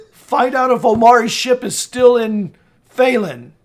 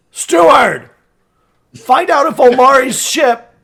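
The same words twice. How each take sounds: First: Raised but more contained command; firm order. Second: Loud, higher call to a servant; shouted summons. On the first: Lord instructing the steward who walked in, firm command. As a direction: give the servant a firm instruction. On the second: Lord calling the steward in from outside, shouting. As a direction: bellow an order out the door. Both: Acted.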